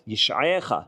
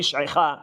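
First: The word is said with a full e vowel. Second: The word is said with a reduced shva vowel. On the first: This is the form used at a pause or verse end. The speaker calls it right. "ענני באמת ישעיך" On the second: This is the form used in mid-verse. The speaker calls it wrong. "ולא ישעיך"

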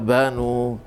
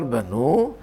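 First: The stress is on the first syllable. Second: The stress is on the last syllable. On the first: The verb comes from a root with a middle vav. "זה מנחי עין וב" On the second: The verb comes from a root ending in he. "השור שהוא בית נון ה"

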